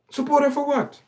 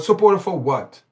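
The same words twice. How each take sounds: First: Much higher, a disbelieving repeat of "Support her for what?"; incredulous. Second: SUPPORT hit hard, falling at the end; indignant question. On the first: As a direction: throw the question up high, can't believe it. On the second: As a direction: flatly demand an answer. Mocking women's support on TV. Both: Real, not acted.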